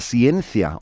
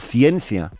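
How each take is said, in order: First: The c is said as an s sound. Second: The c is said as a th sound. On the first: The speaker calls it wrong. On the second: The speaker calls it right.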